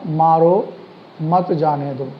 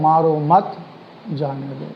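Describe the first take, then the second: First: There is a pause after मारो. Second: There is a pause after मत.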